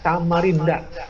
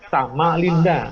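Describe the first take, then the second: First: The third consonant is a clear R sound. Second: The third consonant is an L sound. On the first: It names the city. The speaker calls it right. "Harusnya dibunyikan dengan Samarinda" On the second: It sounds like going with a woman. The speaker calls it wrong. "dia hanya membunyikan sama Linda"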